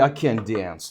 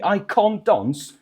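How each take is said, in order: First: It is said in an American accent. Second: It is said in a British accent.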